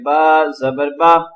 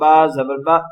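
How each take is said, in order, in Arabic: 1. صوت الحركة عادي وقصير الطول. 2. المقاطع تُقال بسرعة زائدة. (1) "जस्ट इस तरह पढ़ेंगे" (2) "ना इसको जल्दी पढ़ना है ... ये गलत होगा"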